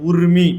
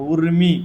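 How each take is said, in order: Both takes have the same delivery.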